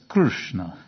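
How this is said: It is pronounced the South Indian way. "those same South Indian pundits will say... it's Krishna"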